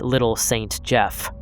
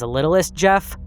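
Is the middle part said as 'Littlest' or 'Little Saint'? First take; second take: Little Saint; Littlest. First: The name is said as 'Little Saint Jeff'. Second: The name is said as 'Littlest Jeff'. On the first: "it was actually intended to be pronounced as Little Saint Jeff" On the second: "I've heard some people pronounce it as Littlest Jeff"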